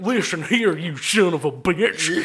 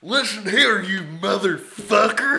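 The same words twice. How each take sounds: First: Slurred, whistling s through the teeth; slow Texan threat with teeth in it; toothy drunk Texan. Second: Put-on angry drunk Texan. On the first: Acted. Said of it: "let's throw some teeth in it". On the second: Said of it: "Angry, drunk Texan".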